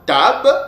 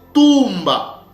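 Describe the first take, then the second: First: It is said as one short syllable. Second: It is said as two syllables. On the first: The speaker calls it wrong. "ne se prononçait pas tab" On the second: The speaker calls it right. "mais ça s'est prononcé tumba"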